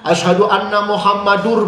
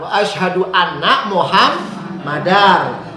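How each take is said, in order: First: The last word ends with an 'ur' sound. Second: The last word ends with an 'ar' sound. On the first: The speaker calls it wrong. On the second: The speaker calls it right. "Kalau depannya anak, belakangnya pasti dibaca nasab"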